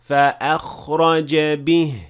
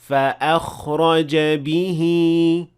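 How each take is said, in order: First: The final word ends without an added long vowel. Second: The final word ends with an added long vowel. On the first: The speaker calls it right. "if I stopped at that word, I will say" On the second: The speaker calls it wrong. "I will not say ... That is incorrect"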